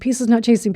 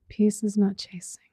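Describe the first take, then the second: First: The phrase is said quickly and hurriedly. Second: The phrase is said slowly and calmly. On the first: The mind is rushing on momentum. The speaker calls it wrong. "we start racing a little bit" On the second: The mind has settled and noticed itself. The speaker calls it right. "you slow down a little bit"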